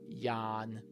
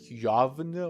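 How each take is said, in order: First: The word has a plain long vowel before the n. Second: The word has a v sound before the n. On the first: The speaker calls it right. "but it's yaan, yawn, like that" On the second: The speaker calls it wrong. "The pronunciation looks like yavn or something"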